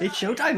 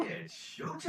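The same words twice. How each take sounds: First: Said in the usual way. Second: Breathy unvoiced whisper of the catchphrase; whispered line. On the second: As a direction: whisper it like a secret teaser. Repeating the game's catchphrase.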